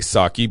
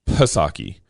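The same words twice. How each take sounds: First: The name starts with an S sound, P silent. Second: The name starts with a sounded P before S. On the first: The speaker calls it wrong. "I know people like to say Psaki, but I think that's wrong" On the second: The speaker calls it right. "You pronounced the P"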